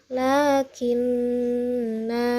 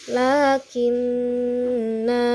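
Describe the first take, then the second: Both takes have the same delivery.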